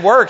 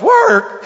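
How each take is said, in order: First: Said in the usual way. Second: Much higher, louder, disbelieving; incredulous echo. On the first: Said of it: "But when I said". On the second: Retold or imitated. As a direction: toss the word Work? back, high and scornful. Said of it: "he goes".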